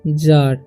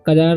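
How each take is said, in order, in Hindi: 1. शब्द 'j' ध्वनि से शुरू होता है। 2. शब्द 'k' ध्वनि से शुरू होता है। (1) "इसे पढ़ना है जार" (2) "सजार या कजार नहीं पढ़ना"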